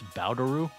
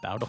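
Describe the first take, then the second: First: The word ends with a 'ru' syllable. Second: The word ends with an L sound. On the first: The speaker calls it right. "you have to pronounce the pun correctly. It's Bowderu" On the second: The speaker calls it wrong. "not Bowdle"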